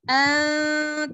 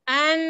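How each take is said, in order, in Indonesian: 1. Lidah tak kena langit-langit, dengungnya lebih lemah. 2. Lidah kena langit-langit, dengungnya kuat. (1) "lidah tak boleh kena langit-langit, ... rasa tak getaran tu menurun?" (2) "lidah kena langit-langit. ... rasa tak getaran tu berlebihan dekat sini?"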